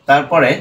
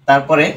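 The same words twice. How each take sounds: Both takes have the same delivery.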